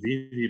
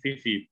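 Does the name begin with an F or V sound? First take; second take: V; F. First: The name is said with a V sound. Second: The name is said with an F sound. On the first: The speaker calls it right. "Padahal itu Vivi pakai V loh" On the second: The speaker calls it wrong. "bacanya Vivi pakai F"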